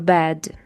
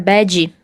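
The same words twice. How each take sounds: First: The word ends cleanly on the D sound. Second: An extra 'ee' vowel follows the final D. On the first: The speaker calls it right. "Então fica I go to bed" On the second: The speaker calls it wrong. "para não inserir ali um som de I e falar bed"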